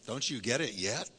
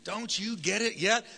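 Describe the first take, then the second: First: Said in the usual way. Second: Higher, slow, mock-exasperated question; teasing rebuke. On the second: Shown as a demonstration. Pastor demoing for the congregation to tease neighbors, higher. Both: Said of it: "tell him".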